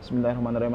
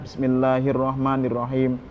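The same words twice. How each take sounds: First: The phrase is recited quickly and hurriedly. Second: The phrase is recited slowly and deliberately. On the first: The speaker calls it wrong. "kalau dibaca cepat-cepat jadi mantra" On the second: The speaker calls it right. "Jadi tartil"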